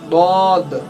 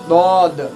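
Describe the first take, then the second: First: The first sound is a heavy, thick d. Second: The same.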